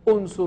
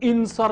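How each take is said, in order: First: The word begins with a 'u' sound. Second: The word begins with an 'i' sound. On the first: The speaker calls it right. "ये उनसुर होगा" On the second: The speaker calls it wrong. "ये इंसर नहीं होगा"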